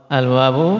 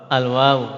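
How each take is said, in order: Both takes have the same delivery.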